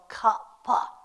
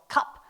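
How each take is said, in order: First: The word is said slowly, final consonant drawn out. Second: The word is said quickly and clipped. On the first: "saying it slow" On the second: "saying it fast"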